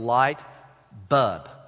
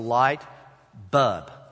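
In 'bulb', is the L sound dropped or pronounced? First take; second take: dropped; dropped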